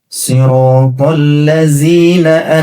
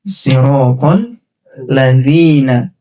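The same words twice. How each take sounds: First: The middle consonant sounds like a 'z'. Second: The middle consonant is a soft 'th'. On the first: The speaker calls it wrong. "boleh jadi baca dalnya begini" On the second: The speaker calls it right. "harusnya siratal ladzina"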